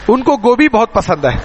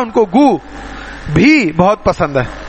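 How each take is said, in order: First: Gobhi is said as one word without a pause. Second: There is a pause right after go. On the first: He likes cauliflower very much. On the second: He even likes excrement very much.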